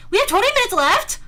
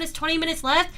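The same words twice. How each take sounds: First: High, loud incredulous question; louder, higher startled repeat; shocked disbelief. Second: Said in the usual way. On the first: Real, not acted. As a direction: blurt it out as it dawns on you. Realizes the time, repeats it shocked.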